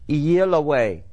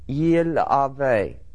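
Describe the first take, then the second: First: The consonant before the last vowel sounds like W. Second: The consonant before the last vowel sounds like V. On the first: This is the ancient pronunciation. "The Vav anciently was pronounced as a W" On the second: This is the modern pronunciation. "I pronounce it today, reading in modern Hebrew"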